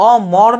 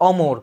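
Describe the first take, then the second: First: অমর as "aw-mawr"; open vowels, as spelt. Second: অমর as "aw-mor"; o-sound in middle. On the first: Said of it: "অমর না বলে". (দুই খোলা অ দিয়ে অমর) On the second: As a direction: round the second vowel of অমর to o. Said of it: "ওকারের মতো উচ্চারণ হচ্ছে". (ও-কারের মতো ম দিয়ে অমর) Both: Shown as a demonstration.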